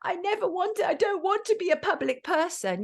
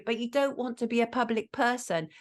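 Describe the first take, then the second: First: High-pitched mocking quote; Alec Baldwin. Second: Said in the usual way. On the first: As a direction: imitate a complaint, pitched well up. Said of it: "Alec Baldwin on the phone to Hilary".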